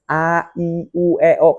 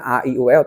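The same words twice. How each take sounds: First: The vowels are said with full, exaggerated mouth movement. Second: The vowels are said lightly with little mouth movement. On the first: The speaker calls it right. "tapi bener-bener" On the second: The speaker calls it wrong. "bukan sekedar cuman"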